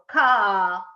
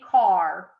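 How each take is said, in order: First: The word is said Boston-style, without the r. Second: The word is said with the r sounded.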